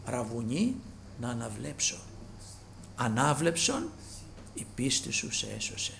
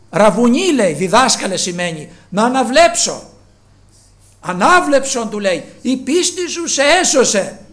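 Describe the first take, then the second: First: Soft retelling. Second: High, loud voicing of both figures; loud acted dialogue. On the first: Acted. Dialogue repeated softly. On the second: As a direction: proclaim the healing words. (δυνατός διάλογος)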